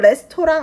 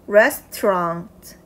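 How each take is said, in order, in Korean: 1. 한국어 외래어 발음으로 말합니다. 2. 영어 발음으로 말합니다. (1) "레스토랑 아닙니다" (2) "restaurant 이렇게 돼야 돼요"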